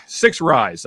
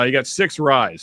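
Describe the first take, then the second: First: Chuckling through it; laughing. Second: Said in the usual way. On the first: Real, not acted. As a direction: laugh out the words. Laughs at his own list.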